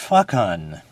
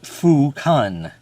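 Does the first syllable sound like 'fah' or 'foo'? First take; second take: fah; foo. First: The first syllable has an 'ah' vowel. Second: The first syllable has an 'oo' vowel. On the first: The speaker calls it wrong. "not Fa-Kun" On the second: The speaker calls it right. "It means Fu, as in Kung Fu. So therefore it's Fu-Kun"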